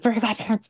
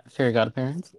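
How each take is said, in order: First: High-pitched fanatical outburst; cartoon teacher impression. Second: Said in the usual way. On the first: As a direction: blurt it like an obsessed cartoon teacher. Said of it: "where he's like".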